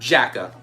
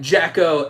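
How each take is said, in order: First: The name ends in an 'ah' vowel. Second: The name ends in an 'oh' vowel. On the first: The speaker calls it wrong. "and not Jacka" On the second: The speaker calls it right. "it's more pronounced like Jacko"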